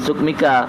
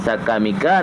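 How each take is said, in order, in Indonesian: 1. Vokal pertama adalah 'u', dengan dua suku kata sebelum -ka. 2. Vokal pertama adalah 'a', dengan tiga suku kata sebelum -ka. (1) "na gebaca ngan sukmika" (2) "na gebaca ngan sakamika"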